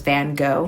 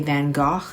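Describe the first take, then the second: First: The name is said with an American pronunciation. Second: The name is said with a British pronunciation. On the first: "Americans pronounce Van Gogh as" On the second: "the British say"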